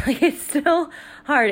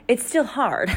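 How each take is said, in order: First: Slower and higher, leaning on still; emphatic repeat. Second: Said in the usual way. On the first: Real, not acted. Insisting to moms that one kid is still hard, emphatic. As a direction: press it home, insisting.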